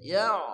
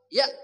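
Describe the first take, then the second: First: The sound flows on smoothly without any break. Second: The sound is cut off by a glottal stop. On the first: The speaker calls it right. "Jadi mesti ya" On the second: The speaker calls it wrong. "Kalau ya generasinya putus, salah. Ya itu hamzah"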